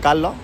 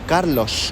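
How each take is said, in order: First: It is said in a regional, non-Madrid accent. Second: It is said in a Madrid accent. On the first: The speaker says his own name his own way. "yo decía Carlos" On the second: It is how friends from Madrid would say it. "como ellos lo dirían"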